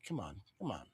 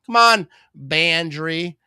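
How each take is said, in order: First: Low, soft groan of come on under the breath; quietly willing the team, "Come on" barely voiced; muttered come on. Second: Louder come on. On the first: Streamer pleading with team, soft muttered urging. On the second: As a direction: call out to the team with a raised voice. Urging the team on, louder. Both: Real, not acted.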